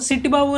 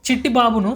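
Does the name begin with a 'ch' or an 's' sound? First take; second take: s; ch. First: The name begins with an 's' sound. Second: The name begins with a 'ch' sound.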